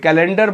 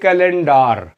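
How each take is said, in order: First: The final syllable is a weak 'der'. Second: The final syllable is a full 'dar'. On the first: "कैलेंडर मत बोलिए" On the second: "बोलिए कैलेंडार"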